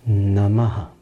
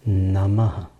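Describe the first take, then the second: Both takes have the same delivery.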